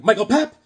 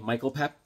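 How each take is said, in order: First: Raised, louder catchphrase with a lift; teasing name call. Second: Said in the usual way. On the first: Retold or imitated. Coworker needling a man with his own name, high mocking call. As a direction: punch the name out high to tease. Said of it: "I started calling him". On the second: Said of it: "first of all, that's his name".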